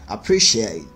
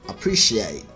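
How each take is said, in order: Both takes have the same delivery.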